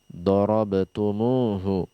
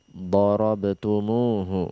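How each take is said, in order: No difference in how they are said.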